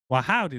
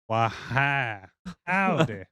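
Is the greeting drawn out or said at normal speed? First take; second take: normal; drawn out. First: The greeting is said at an ordinary speed. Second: The greeting is slowly drawn out in a drawl. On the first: "rather than just talking like a normal" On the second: "It's more of a"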